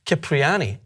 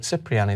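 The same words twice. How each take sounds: First: Cipriani said with a hard K, "kip-ree-AH-nee"; hard-K pronunciation. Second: Cipriani said with an S sound, "sip-ree-AH-nee"; soft-C pronunciation. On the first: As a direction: start Cipriani with "kip", like "skip". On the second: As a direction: start Cipriani with "sip", as in a sip of water. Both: Shown as a demonstration. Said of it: "is that how you pronounce it".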